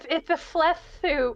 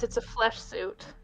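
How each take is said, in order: First: It is said with a lisp. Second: It is said without a lisp.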